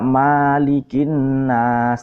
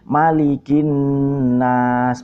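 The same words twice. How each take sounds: First: The vowel after m is drawn out long. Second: The vowel after m is kept short. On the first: The speaker calls it wrong. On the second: The speaker calls it right. "memnya dibaca pendek"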